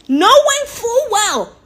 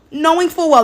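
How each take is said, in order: First: KNOWING FULL WELL stretched very slowly on a high pitch; "knowing full well" in long, high, exaggerated syllables; drawn-out emphasis. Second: Said in the usual way. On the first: Shown as a demonstration. Comic emphasis before repeating it normally.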